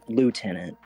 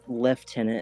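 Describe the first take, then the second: First: It is said in an American way, like 'lootenant'. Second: It is said in a British way, like 'leftenant'.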